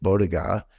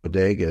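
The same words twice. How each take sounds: First: BODEGA mispronounced in mockery of someone else; mock mispronunciation. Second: Said in the usual way. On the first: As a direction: deliberately botch the word BODEGA. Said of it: "She thinks ... is pronounced". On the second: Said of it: "the word bodega is pronounced".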